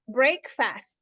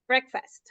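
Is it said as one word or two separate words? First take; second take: two words; one word. First: It is said as two separate words. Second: It is said as one joined word. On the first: The speaker calls it wrong. "They break the fast" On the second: The speaker calls it right. "and it's break, breakfast"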